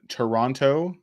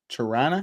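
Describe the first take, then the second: First: The name is said in full, every syllable clear. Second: The name is said reduced, with syllables clipped.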